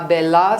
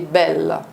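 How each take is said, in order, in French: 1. Le mot se termine par une voyelle ouverte 'ah'. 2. Le mot se termine sur la consonne L. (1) "ce n'est pas un vrai A. Ce n'est pas bella" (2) "c'est belle"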